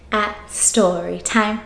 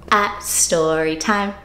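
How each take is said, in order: Both takes have the same delivery.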